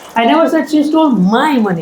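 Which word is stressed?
my. The word my carries the main stress. It belonged to someone else. "It was somebody's money"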